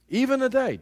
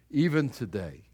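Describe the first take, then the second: First: "Even today" pitched high and hit hard; urgent repeated "Even today"; emphatic repeat. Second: Said in the usual way. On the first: Shown as a demonstration. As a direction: hammer home "Even today" as a wake-up call.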